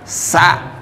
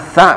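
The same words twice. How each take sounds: First: It begins with a plain s sound. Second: It begins with a th sound, tongue on teeth. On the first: The speaker calls it wrong. "bukan ... sa. Enggak. Kalau sa nanti jadinya sin" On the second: The speaker calls it right. "Alif, ba, ta, sa"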